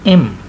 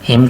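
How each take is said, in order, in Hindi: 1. शब्द बिना किसी h ध्वनि के शुरू होता है। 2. शब्द एक साफ़ h ध्वनि से शुरू होता है। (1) "हिम को इम" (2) "हिम को इम"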